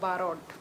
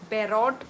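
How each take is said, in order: First: The first syllable has a long 'aa' vowel. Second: The first syllable has an 'ai' vowel. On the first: The speaker calls it right. "मतलब मैं गलत बोल रही थी" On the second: The speaker calls it wrong. "मैं बैरोट बोल रही थी आई थिंक"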